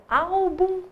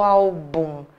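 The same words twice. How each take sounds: First: "Álbum" slowly, AL raised and stretched; tônica em ÁL. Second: "álbum" wrongly stressed as al-BUM, drawn out; tônica em BUM. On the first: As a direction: hold the first syllable of "Álbum" up high. ("Álbum" devagar, com o "Ál" levantado) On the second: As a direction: stretch the final BUM of "álbum". ("álbum" devagar, como "albúm") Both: Shown as a demonstration. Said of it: "pronuncia devagar e tenta levantar".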